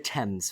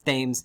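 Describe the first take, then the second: First: It is said with the usual British pronunciation. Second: It is said with an unusual, non-British pronunciation. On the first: A British listener would find it normal. The speaker calls it right. "the Thames, folks" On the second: A British listener would find it strange. The speaker calls it wrong. "Please do not pronounce it Thames"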